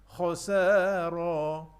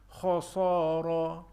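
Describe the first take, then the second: First: The s sound is thin and light, like sin. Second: The s sound is thick and heavy, like sad. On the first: The speaker calls it right. "jadi di sini kita kena hati-hati" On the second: The speaker calls it wrong. "pada bacaan sin dibaca seolah-olah macam huruf sad"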